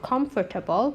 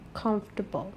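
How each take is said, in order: First: Every syllable is sounded, including the middle sound. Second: The middle sound is dropped from the word. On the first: The speaker calls it wrong. "it's not comfortable" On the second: The speaker calls it right. "The sound in the middle is silent"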